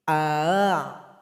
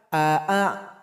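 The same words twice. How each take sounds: First: The second vowel's glottal stop is softened. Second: The second vowel has a full glottal stop. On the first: The speaker calls it right. "mesti meringankan hamzah yang kedua" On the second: The speaker calls it wrong. "Salah kalau dibaca a a"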